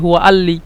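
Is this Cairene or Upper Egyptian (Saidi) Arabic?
Cairene. The qaf is dropped, Cairene style.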